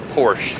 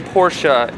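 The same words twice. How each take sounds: First: The word ends with no final vowel sound. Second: The final e is sounded as an extra syllable. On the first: This is the speaker's own usual way. "instead of Porsche" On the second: This is how someone else says it. "Why do you say Porsche"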